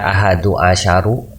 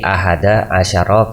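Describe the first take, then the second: First: Both words end with a u vowel. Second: Both words end with an a vowel. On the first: The speaker calls it wrong. "Tidak dibaca ahadu asyaru" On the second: The speaker calls it right. "tetapi ahada asyara karena mabni"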